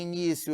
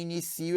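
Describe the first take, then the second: First: Noun "início", i-NÍ-cio; "início" with weight on NÍ; stress on NÍ. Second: Verb "inicio", i-ni-CI-o; "inicio" with weight on SÍ, i-ni-SÍ-o; stress on CI. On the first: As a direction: stress the second syllable of "início". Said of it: "eu tenho substantivo". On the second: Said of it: "em inicio eu tenho". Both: Shown as a demonstration.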